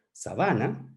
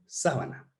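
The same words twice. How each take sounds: First: Said in the usual way. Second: Sábana with the stress on the first A: SÁ-ba-na; accented sábana. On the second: Shown as a demonstration. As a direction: push the stress to the front of sábana. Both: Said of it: "si le ponemos un tilde en la primera A".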